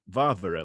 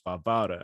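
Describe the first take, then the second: First: The stress is on the first syllable. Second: The stress is on the middle syllable. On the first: The speaker calls it wrong. "it looks like Varvara, like you might say Barbara" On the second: The speaker calls it right. "but it's Varvara ... a big double line underneath the middle syllable"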